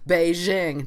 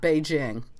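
First: The J sounds like the s in measure. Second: The J sounds like the j in jam. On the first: The speaker calls it wrong. "I would be one of those Americans who say Beijing" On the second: The speaker calls it right. "not Beijing"

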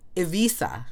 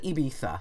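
First: The consonant near the end sounds like s. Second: The consonant near the end sounds like th. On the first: This is the local Catalan way of saying the name. The speaker calls it right. "it's not a th, it's an S again" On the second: This is the Spanish way of saying the name. The speaker calls it wrong. "you're right about the Z sound as a TH sound, if you're talking in Spanish"

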